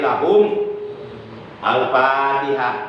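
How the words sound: A breath pause separates the two words. The reading is broken into two parts. "bacaan terputus. Berarti disyaratkan mengambil napas dulu"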